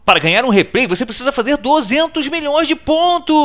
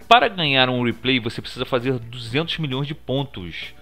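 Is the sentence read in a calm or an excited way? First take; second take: excited; calm. First: It is read in a loud, excited way. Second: It is read in a plain, calm way.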